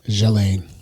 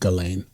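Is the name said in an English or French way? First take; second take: French; English. First: The name is said the French way. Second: The name is said the English way. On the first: "If it's French, it was Jelaine" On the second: "because she is is English and American, it'd be Ghislaine"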